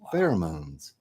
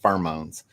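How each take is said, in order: First: It has a standard pronunciation. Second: It has a Louisiana regional pronunciation. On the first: The speaker calls it right. "So then I had to pronounce it like twenty-five thousand times" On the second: The speaker calls it wrong. "I used to say pheromones. Literally, that's that's how I said it"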